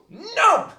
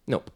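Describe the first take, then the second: First: It is said loudly and excitedly. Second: It is said flatly and casually.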